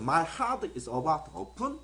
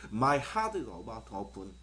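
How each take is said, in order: First: The pitch rises at the end on open. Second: The pitch falls at the end on open. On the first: It asks whether someone is angry. "오픈하고 마지막에 올렸기 때문에 물어보는 말이잖아요" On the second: It states that the speaker is angry. "open이라는 말이 더 크게 들려야"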